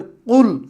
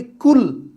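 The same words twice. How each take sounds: First: Arabic teacher showing the heavy qaf in কুল; heavy q sound. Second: কুল with a light front k; teacher contrasting the light k in কুল; light k sound. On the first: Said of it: "একটু বড় করে বলি". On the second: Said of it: "হালকা করে বলি কুল". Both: Shown as a demonstration.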